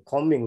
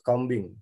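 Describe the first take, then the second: First: "Combing" as KOH-ming, silent b; correct pronunciation. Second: "combing" as KOM-bing, b sounded; wrong pronunciation. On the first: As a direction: say "Combing" with no b heard. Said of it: "don't say". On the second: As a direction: say "combing" with an audible b. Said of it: "not combing". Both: Shown as a demonstration.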